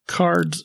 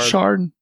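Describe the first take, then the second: First: The name begins with an 'sk' sound. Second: The name begins with an 'sh' sound. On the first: The speaker calls it wrong. "I shouldn't pronounce the name" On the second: The speaker calls it right. "It's Shard"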